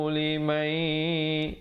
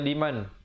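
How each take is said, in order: First: The n merges into the next sound, nasalized. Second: The final n is pronounced clearly on its own. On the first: "hukum idgham bi gunnah, iaitu masuk beserta dengung" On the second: "Di situ asalnya liman"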